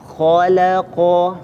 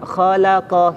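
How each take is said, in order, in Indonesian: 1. Suku kata kha terdengar tebal dan penuh. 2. Semua suku kata terdengar tipis, termasuk yang pertama. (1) "perlu kita latih khalaqa" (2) "kadang tipis semuanya. Khalaqa gitu saja"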